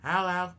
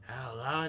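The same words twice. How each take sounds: First: It is said in the base character voice. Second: It is said slightly sleepier, with a little rasp. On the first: "watch this" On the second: "let me change my voice ever so slightly"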